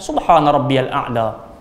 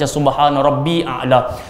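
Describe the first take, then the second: First: Rabbi links smoothly into a'la as rabbiyal. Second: Rabbi runs straight into a'la with no article. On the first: The speaker calls it right. "yang lebih baik sambung ajalah" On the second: The speaker calls it wrong. "Setengah kadang kita baca subhana rabbi a'la"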